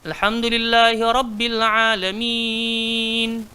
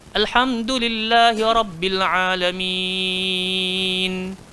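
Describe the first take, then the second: First: The final long vowel is held for four counts. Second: The final long vowel is held for six counts. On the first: The reciter is reading at a moderate pace. "dia boleh empat" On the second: The reciter is reading slowly and calmly. "dia boleh enam"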